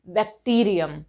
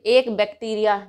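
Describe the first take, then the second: First: बैक्टीरियम said as the right singular; correct form. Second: एक बैक्टीरिया said as the wrong singular; wrong form. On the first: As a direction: give बैक्टीरियम firmly as the correct word. (सही रूप बैक्टीरियम) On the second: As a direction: say एक बैक्टीरिया as a mistake to avoid. (गलत रूप एक बैक्टीरिया) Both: Shown as a demonstration. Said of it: "हम ऐसे नहीं कहेंगे".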